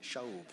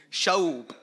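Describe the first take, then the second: First: Shaub said softly and savoured, vowel like show; quietly taste the word Shaub; relishing the word. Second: Shaub boomed out loud, ending in a clear b; booming the word. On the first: Preacher enjoys saying the Hebrew word Shaub, softly. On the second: Preacher enjoys saying the Hebrew word Shaub, booming it. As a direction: proclaim Shaub loudly. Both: Shown as a demonstration. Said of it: "I like just saying it".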